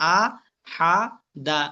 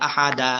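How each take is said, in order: First: "আ, হা, দা" said one syllable at a time. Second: "আহা দা" run together as one word; in one pull. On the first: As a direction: separate "আ", "হা", "দা" with clear pauses. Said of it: "একটা একটা করে উচ্চারণ করবেন". ("আ, হা, দা" একটা একটা করে থেমে উচ্চারণ) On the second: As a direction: say "আহা দা" joined, without pausing between syllables. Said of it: "আমি একটানে বলছি". ("আহা দা" একটানে পড়া) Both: Shown as a demonstration.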